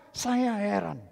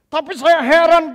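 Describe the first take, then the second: First: Said in the usual way. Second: Loud, high cry of wonder; loud dismay. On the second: Real, not acted. Pastor voicing his amazement at the church, loud dismay. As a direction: exclaim your amazement to the hall.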